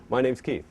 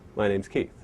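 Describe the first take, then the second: First: The voice sounds warm and friendly. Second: The voice sounds polite and formal. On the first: The speaker is greeting a close friend. "It feels very warm" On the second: The speaker is meeting a stranger. "If I was to meet Dennis for the first time, and I didn't know him"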